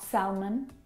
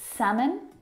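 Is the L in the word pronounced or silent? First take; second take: pronounced; silent. First: The L sound is pronounced in the word. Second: The L sound is silent in the word. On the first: The speaker calls it wrong. "not salmon" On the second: The speaker calls it right. "words that have a silent letter L in them. Words like salmon"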